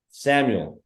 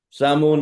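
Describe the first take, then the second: First: Said in the usual way. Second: "Samu" said clipped, dropping the last syllable; name cut short. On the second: Retold or imitated. Support guy mangling the caller's name, "Samu" cut short. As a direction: chop "Samu" off early. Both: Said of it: "No, no, no".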